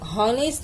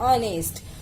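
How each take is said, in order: First: The word begins with an audible h sound. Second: The word begins directly with a vowel sound. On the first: The speaker calls it wrong. "हॉनेस्ट नहीं बोलते" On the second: The speaker calls it right. "हम बोलते हैं ऑनेस्ट"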